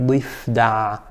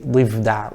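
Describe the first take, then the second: First: The middle consonant is a clear F. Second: The middle consonant sounds like a V. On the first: The speaker calls it right. "while it should be" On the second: The speaker calls it wrong. "In slang, some of us say"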